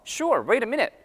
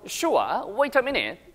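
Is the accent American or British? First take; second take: American; British. First: It is said quickly in an American accent. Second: It is said in a British accent. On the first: "굉장히 빠르죠?" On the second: "밑에도 ... 이렇게 들립니다"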